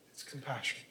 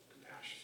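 First: Said in the usual way. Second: Hushed repeat. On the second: Real, not acted. Preacher echoing the key word, hushed. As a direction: repeat the word almost breathless, very soft.

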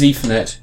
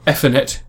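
First: "Ethernet" said with a long ee at the start; long-ee first syllable in "Ethernet"; usual pronunciation. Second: "Ethernet" said with a short e at the start; short-e first syllable in "Ethernet"; alternative pronunciation. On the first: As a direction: say "Ethernet" as EE-ther-net. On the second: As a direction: say "Ethernet" as EH-ther-net. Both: Shown as a demonstration. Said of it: "depending on how you pronounce it".

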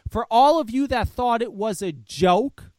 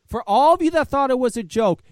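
First: Said in the usual way. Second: "for all of you" again, louder and higher; louder repeat. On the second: Real, not acted. Repeating the line to viewers, louder and insistent. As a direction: hammer it home the second time.

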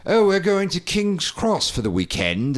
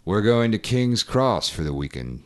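First: Higher, lilting mock British accent; light mock British accent. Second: Light Morgan Freeman impression. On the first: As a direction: put on a posh British accent for the line. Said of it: "it's like". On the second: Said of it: "straight Morgan Freeman". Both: Shown as a demonstration.

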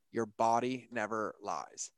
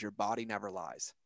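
First: Slower, weighting "body" in "Your body never lies."; slow emphatic repeat. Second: Said in the usual way. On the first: Shown as a demonstration. Repeating his partner's saying, slow emphatic second take. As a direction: let "Your body never lies." land slowly, stressing "body". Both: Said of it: "that nails me every time is".

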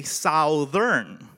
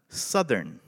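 First: "Southern" with the "ou" of "south", sow-thern, slow; Filipino way of saying it. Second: "Southern" with a short "uh", suh-thern; American way of saying it. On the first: Shown as a demonstration. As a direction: say "Southern" like "South" plus "ern". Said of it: "we say, in the Philippines". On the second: Retold or imitated. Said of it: "So they go".

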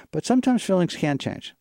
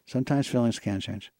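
First: "sometimes" stressed high and loud; emphatic. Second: Said in the usual way. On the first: Real, not acted. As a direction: lift "sometimes" up and hit it hard.

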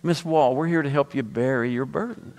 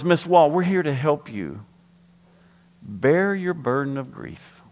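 First: "bury" said in two syllables, like "berry"; slip of the tongue. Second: "bear" said like "bare", one syllable; careful condolence with "bear" rhyming with "care"; intended wording. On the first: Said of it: "What I said?". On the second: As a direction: say "bear" as a single clean syllable. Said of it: "What I meant to say". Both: Retold or imitated.

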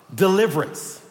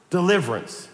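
Both takes have the same delivery.

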